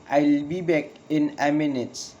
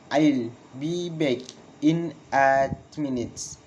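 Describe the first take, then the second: First: Whole sentence in one run, falling on "minute"; falling intonation. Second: Slow, pause after "back", "minute" falling; slow falling intonation. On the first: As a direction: model a connected statement, "minute" dropping. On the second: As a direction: break it up slowly for learners. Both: Shown as a demonstration. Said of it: "Falling intonation in statement".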